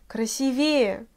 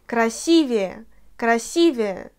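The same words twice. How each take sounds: First: Красивее stressed on the last E; красивее with the wrong final stress. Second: Красивее twice, stress on the И; correct stress. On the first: Teacher imitating the Russians' mistake. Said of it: "C'est tout à fait in-, incorrect". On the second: Teacher repeating the right form to memorise. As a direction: hit the И in Красивее. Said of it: "alors mémorise bien". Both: Shown as a demonstration.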